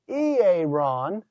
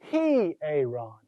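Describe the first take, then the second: First: The word starts directly with a vowel. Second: The word starts with an h sound. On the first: The speaker calls it wrong. "It's not simply hieron" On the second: The speaker calls it right. "with the rough breather, it's a heh sound"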